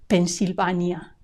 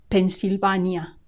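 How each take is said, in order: Both takes have the same delivery.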